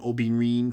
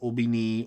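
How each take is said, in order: First: The word ends with a clear 'rin' syllable. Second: The word ends with a 'ni' syllable, no 'r'. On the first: This is the original Yoruba form. "from Yoruba" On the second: This is the later Cuban form. "more Cubanized"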